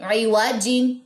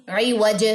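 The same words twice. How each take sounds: First: عی وا جین ending on a full -jin; with tanween. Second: عی وج stopped on ج with a bounce; waqf with qalqala. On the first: Teacher reading the word with tanween. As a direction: keep the nun of جین. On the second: Teacher showing a waqf stop with qalqala. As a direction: drop the tanween and echo the jeem. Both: Shown as a demonstration. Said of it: "جیم پہ کلکلہ ہوگا".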